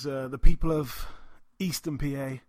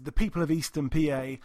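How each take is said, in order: First: It is said in an attempted put-on accent. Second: It is said in a natural, unaltered voice. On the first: "What accent was that?" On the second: "I'm just going to have to do it in my own voice"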